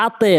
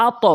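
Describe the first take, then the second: First: আতে with the t wrongly released down to an e; wrong downward bounce. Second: আত bounced upward into a rounded o; upward bounce. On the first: Teacher showing the mistake to avoid, downward bounce. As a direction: tip the end of আতে into a thin e. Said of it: "আতে না, উপর নিচের দিকে নয়". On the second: Teacher correcting which way the echo goes, upward bounce. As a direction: release the t of আত upward, heavy and rounded. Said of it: "উপরের দিকে". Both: Shown as a demonstration.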